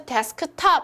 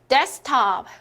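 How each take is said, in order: First: The middle K sound is clearly pronounced. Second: The middle K sound is dropped entirely. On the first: The speaker calls it wrong. "여기서 데스크탑 이렇게 발음을 하나요? 아니죠" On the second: The speaker calls it right. "가운데 여기 K를 탈락시킨다, 생략시킨다"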